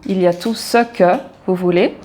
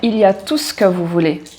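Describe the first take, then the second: First: Spoken slowly with the e of ce pronounced. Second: Spoken quickly with the e of ce dropped. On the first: "si on parle lentement" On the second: "on oublie le E de ce"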